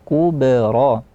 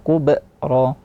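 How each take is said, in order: First: The b flows straight on without a catch. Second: A glottal catch follows the b sound. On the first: The speaker calls it right. "langsung saja kubra" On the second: The speaker calls it wrong. "dihadirkan hamzah, kubra enggak"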